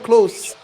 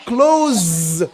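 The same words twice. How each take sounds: First: The word ends with a hissing s sound. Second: The word ends with a buzzing z sound. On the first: Being near to something. "S, s, like this" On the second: Shutting something such as a door. "The same word, but different pronunciation"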